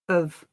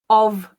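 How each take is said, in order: First: The word is reduced to a schwa sound. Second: The word has a full vowel sound. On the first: "I'll read both the strong and the weak form" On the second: "I'll read both the strong and the weak form"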